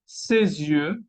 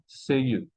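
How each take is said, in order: First: Ses yeux linked with a z; liaison. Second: Ses yeux with silent s; ses, then yeux, unlinked; missing liaison. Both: Shown as a demonstration. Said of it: "y no ses yeux".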